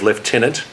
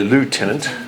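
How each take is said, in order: First: It is said with a British pronunciation. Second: It is said with an American pronunciation.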